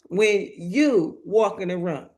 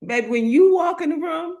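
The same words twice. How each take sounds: First: Said in the usual way. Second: "you" lifted higher and louder, a call to the crowd; rising preacher emphasis. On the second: Acted. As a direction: throw "when you walk in the room" up high like a rally cry. Preacher repeats line, first take.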